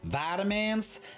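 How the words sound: It is said in an American accent. The speaker calls it wrong.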